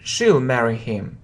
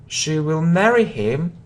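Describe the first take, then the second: First: Will is shortened and joined to the pronoun. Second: Will is said as a full separate word.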